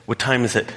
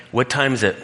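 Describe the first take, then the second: First: Bored question said again through a laugh; chuckling, impatient repeat. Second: Bored mock question. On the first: Retold or imitated. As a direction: ask the time again half-laughing. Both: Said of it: "And I'm just like".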